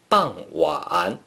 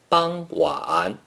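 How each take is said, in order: First: The first syllable has a falling tone. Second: The first syllable has a high level tone. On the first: This is how it is said in China. "In China, people pronounce it" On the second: This is how it is said in Taiwan. "in Taiwan, people pronounce it"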